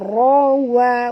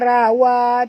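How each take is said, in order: First: The r sound is heavy and thick. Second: The r sound is light and thin. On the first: The speaker calls it right. "ra tebal" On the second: The speaker calls it wrong. "jangan baca rawa"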